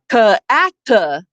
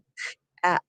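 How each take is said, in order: First: Each consonant sound ends with an added vowel. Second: The consonant sounds are clipped with no added vowel. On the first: The sounds are hard to blend into the word. The speaker calls it wrong. "the kids aren't trying to blend ka atta" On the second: The sounds blend easily into the word. The speaker calls it right. "They have to go from k at to blend"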